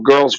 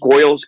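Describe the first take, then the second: First: The vowel sounds like a standard American 'er'. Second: The vowel sounds like 'oy', old New York style.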